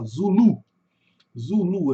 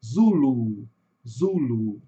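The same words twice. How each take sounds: First: Zulu as "zu-LU", Portuguese style; stress on last syllable. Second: Zulu as "ZU-lu", English style; stress on first syllable. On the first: Teacher showing Portuguese Zulu, stress on the final syllable. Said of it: "a sílaba tônica no final". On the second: Teacher showing English Zulu, stress on the first syllable. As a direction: lean on ZU, let lu fall lower. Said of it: "No inglês a sílaba tônica está no começo". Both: Shown as a demonstration.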